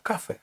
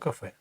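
First: The stress is on the first syllable. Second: The stress is on the last syllable. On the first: The speaker calls it wrong. "якби ми виконали правило, то було б кафе" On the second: The speaker calls it right. "а нам потрібно кафе"

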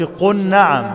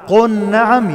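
First: The l blends into the following n. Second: The l is pronounced clearly before the n. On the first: The speaker calls it wrong. "ما قلش قل نعم" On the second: The speaker calls it right. "لازم أنطق اللام كويس"

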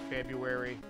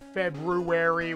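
First: The word is said in a shortened form. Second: Every letter of the word is pronounced. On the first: The speaker calls it right. "we just say February" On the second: The speaker calls it wrong. "We don't say February"

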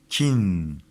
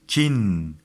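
The two takes are said the same way.

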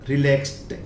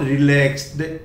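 First: The ending is pronounced as t. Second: The ending is not pronounced as t. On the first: The speaker calls it right. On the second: The speaker calls it wrong.

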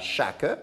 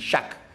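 First: A vowel sound is heard after the final k. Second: The word ends on the k sound. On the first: The speaker calls it wrong. "on ne dit pas chaque" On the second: The speaker calls it right. "on dit chaque. Donc, on n'entend pas le E"

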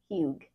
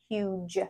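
First: The vowel is short and the g is hard. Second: The vowel is long and the g is soft. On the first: The speaker calls it wrong. "not huge" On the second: The speaker calls it right. "It's making our U long, and it's making our G soft. So we say huge"

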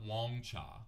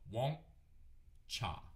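First: The word is said smoothly without a break. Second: A glottal stop breaks the word in the middle. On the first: The speaker calls it wrong. "This is not wongcha" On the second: The speaker calls it right. "There's a break in the middle. That's a glottal stop"

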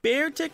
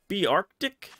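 First: It sounds like the words bear and tick. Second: It sounds like the words be and arctic. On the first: "is it bear tick? Because bear tick just doesn't sound like a creative name" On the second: "but be arctic?"

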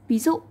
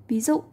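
Both takes have the same delivery.

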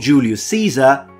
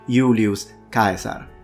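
First: The name is pronounced the English way. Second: The name is pronounced the Latin way.

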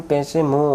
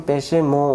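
Both takes have the same delivery.

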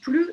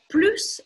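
First: The final s of plus is silent. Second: The final s of plus is pronounced. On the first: It means no longer. "Вот когда отрицание, не произносим" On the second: It means more. "Когда прибавление, произносим"

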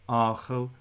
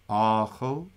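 Both takes have the same delivery.

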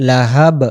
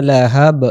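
No difference in how they are said.

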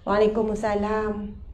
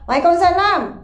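First: It sounds weak and tired. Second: It sounds angry and curt.

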